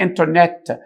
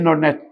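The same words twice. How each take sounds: First: The t after the n is clearly pronounced. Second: The t after the n is dropped. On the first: The speaker calls it wrong. "فما تقولش عليها انترنت" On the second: The speaker calls it right. "امال ذا انترنت ... هتبقى التي هنا ايه؟ سايلنت"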